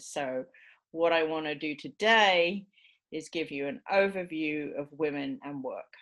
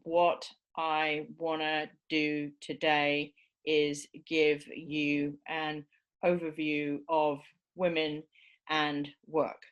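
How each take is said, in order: First: Only a few key words are stressed. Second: Every content word is given equal stress. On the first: "we only make a few of those lexical stresses um, prominent" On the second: "So that's lexical stress"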